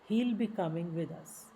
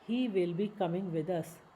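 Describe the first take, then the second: First: 'He will' is shortened into one syllable. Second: 'He will' is said as two full words.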